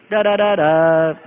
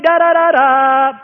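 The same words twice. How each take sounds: First: Slow, low da-da-da-daaa; Morse code demo. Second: High, loud, drawn-out da-da-da-daaa; Morse V signal. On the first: Shown as a demonstration. Explaining the war signal, low slow Morse imitation. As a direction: intone the signal low and evenly, last note held. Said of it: "Morse code for V". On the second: Acted. Nation mobilized for war, loud high Morse signal. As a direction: blare the V-for-victory signal, slow and high. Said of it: "That was a World War Two signal".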